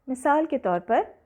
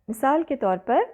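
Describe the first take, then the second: Both takes have the same delivery.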